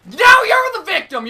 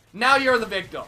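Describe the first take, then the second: First: Now punched high and loud; shouted repeat. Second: Said in the usual way. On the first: Real, not acted. Gamer mocking his killer, repeating it as a high shout. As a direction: throw the line back louder, Now first.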